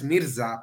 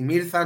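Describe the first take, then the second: First: "Mirza" with an s sound for the z; "Mirza" with a hissed s, no Spanish th; correct pronunciation. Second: "Mirza" with a Castilian th for the z; "Mirza" lisped Spanish-style, as the mistaken reading; wrong pronunciation. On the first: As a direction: say "Mirza" as MEER-sa. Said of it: "simplemente por la fonética". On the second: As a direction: say "Mirza" as MEER-tha. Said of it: "Mirza no es Mirza". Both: Shown as a demonstration.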